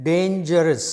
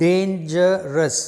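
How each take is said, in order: First: Said in the usual way. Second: Dangerous stretched slowly across its three syllables; teacher slowing down to count the syllables in dangerous; slowly spelled out. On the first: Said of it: "you have". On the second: Shown as a demonstration.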